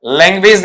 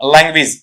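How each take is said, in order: First: लैंग्वेज as "leng-wayz", long last vowel; common mispronunciation. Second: लैंग्वेज as "lang-wiz", short final vowel; corrected pronunciation. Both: Shown as a demonstration. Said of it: "लैंग्वेज नहीं बनेगा".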